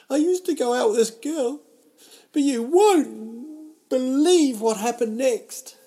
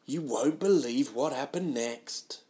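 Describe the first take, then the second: First: Much higher, much louder, hammed-up teaser voice; clickbait announcer. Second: Slow, lightly voiced teaser line; clickbait tease. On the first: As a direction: sell it like a cheesy viral headline, slowing on the hook. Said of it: "I'm like live clickbait". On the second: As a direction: stretch the hook like a mild headline. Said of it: "a lot of clickbait".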